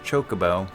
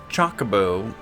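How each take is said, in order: First: It does not begin like chocolate. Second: It begins like the word chocolate. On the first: This is how the voice actors say it. "they pronounced it" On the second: This is an older, personal way of saying it. "I always pronounced it"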